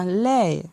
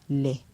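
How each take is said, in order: First: The syllable is said on a falling tone. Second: The syllable is said on a low tone. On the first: "un ton descendant" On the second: "avec un ton bas"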